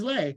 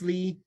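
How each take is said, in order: First: The name rhymes with 'day'. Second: The name rhymes with 'see'. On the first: The speaker calls it wrong. "a lot of people just assume that my my name is Lay" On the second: The speaker calls it right. "but it's Lee"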